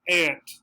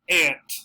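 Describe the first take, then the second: First: It is said with an American pronunciation. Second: The same.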